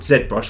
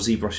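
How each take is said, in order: First: The name is said in a non-American pronunciation. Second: The name is said in the American pronunciation. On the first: "it's called ZBrush" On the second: "if you're in the U S"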